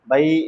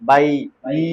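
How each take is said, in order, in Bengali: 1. স্বরটি ছোট ও দ্রুত করে বলা হয়। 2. স্বরটি লম্বা করে টেনে বলা হয়। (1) "মানে এখানে জবরের সঙ্গে ইয়ার টান হচ্ছে না" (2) "এই যে টান হচ্ছে না, বাই ই হচ্ছে না"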